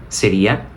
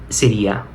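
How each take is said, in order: No difference in how they are said.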